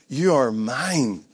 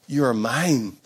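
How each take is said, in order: First: Tender Father's voice. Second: Said in the usual way. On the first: Acted. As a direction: say it gently and slowly, as a father reassuring his child. Voicing the Father's words.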